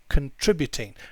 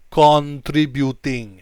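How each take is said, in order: First: The first syllable is reduced to a weak 'kin'. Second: The first syllable is a full, clear 'con'. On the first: The speaker calls it right. "It's kin, kin" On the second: The speaker calls it wrong. "we don't say contributing... So we don't say con"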